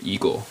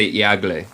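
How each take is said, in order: First: "eagle" as EE-gul, two syllables; correct English pronunciation. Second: "eagle" read by its spelling, ee-AH-gleh; mispronunciation demo. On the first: Teacher showing learners how eagle is said, as EE-gul. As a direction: say "eagle" with a pure long EE. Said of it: "Esto es como se dice". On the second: Teacher warning learners off eagle said as ee-AH-gleh. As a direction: sound out every letter of "eagle" Spanish-style. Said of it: "No se dice eagle". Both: Shown as a demonstration.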